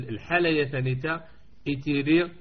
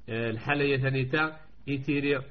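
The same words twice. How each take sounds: Both takes have the same delivery.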